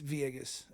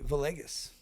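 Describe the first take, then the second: First: The double L is said as a Y. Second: The double L is said as an L. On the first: The speaker calls it right. "the L's make E's, so it's Villegas" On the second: The speaker calls it wrong. "most people will say Villegas"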